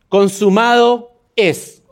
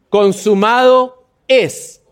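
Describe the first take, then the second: First: It is said plainly, without much conviction. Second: It is said firmly, with strong conviction.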